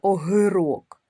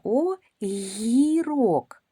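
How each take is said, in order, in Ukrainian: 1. Звук г твердий, не пом'якшений. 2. Звук г м'який перед голосним. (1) "Ми ж не кажемо з вами огирок" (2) "гі м'якенько"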